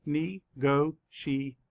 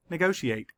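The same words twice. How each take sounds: First: Slow, each syllable pulled apart. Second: Said in the usual way. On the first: Shown as a demonstration. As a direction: sound out each syllable slowly. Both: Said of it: "Let's count the syllables".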